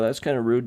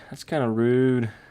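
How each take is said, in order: First: It is said in the speaker's ordinary accent. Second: It is said in a put-on British accent.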